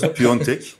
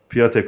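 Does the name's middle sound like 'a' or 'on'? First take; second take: on; a. First: The middle vowel is a nasal 'on' sound. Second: The middle vowel is a plain 'a' sound. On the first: "hepimiz kullanıyoruz" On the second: "seyircilerimiz ısrarla Piatek olduğunu söylüyorlar"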